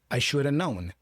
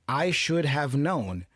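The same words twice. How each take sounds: First: The phrase is said in reduced form. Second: The phrase is said in full form. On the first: "the sound version, how you heard it" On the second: "the formal version"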